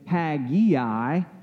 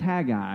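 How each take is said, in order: First: An extra 'eye' sound comes before the 'a'. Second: No extra 'eye' sound comes before the 'a'. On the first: The speaker calls it wrong. "Some people pronounce it Haggai" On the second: The speaker calls it right. "there is no I before the A, so it's just Haggai"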